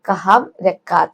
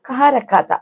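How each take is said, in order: First: The first word ends with the lips closing. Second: The first word ends without the lips meeting. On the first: The speaker calls it wrong. "അവിടെ കഹാം എന്ന് പറയണ്ട" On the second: The speaker calls it right. "ആ ചുണ്ടങ്ങനെ കൂട്ടിമുട്ടില്ല"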